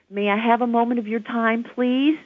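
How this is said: The pitch goes up at the end. The request sounds weak and unsure. The speaker calls it wrong. "let's practice the upward inflection and see how weak it feels"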